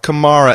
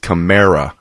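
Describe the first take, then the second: First: The name does not sound like America. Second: The name sounds like the word America. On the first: The speaker calls it wrong. "It's not Kamara, everybody. Not like the soccer players" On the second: The speaker calls it right. "This is Kamara. Kamerica"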